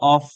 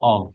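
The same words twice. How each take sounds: First: The word ends with an f sound. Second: The word ends with a v sound. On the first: The speaker calls it wrong. "কেউ অফ বলবেন না" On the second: The speaker calls it right. "উপরের দাঁত নিচের ঠোঁটের সাথে বাঁচবে। অফ, ভ"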